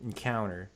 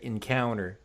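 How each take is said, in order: First: It is pronounced with an American sound. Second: It is pronounced with an American sound.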